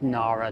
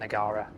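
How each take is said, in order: First: The name is said without a g sound. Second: The name is said with a g sound. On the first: The speaker calls it right. "it's Nara, a silent G" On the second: The speaker calls it wrong. "not Nagara"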